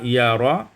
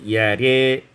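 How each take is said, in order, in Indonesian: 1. Kata itu berakhir dengan vokal 'a' terbuka. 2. Kata itu berakhir dengan vokal 'e' depan.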